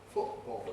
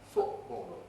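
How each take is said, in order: The two takes are said the same way.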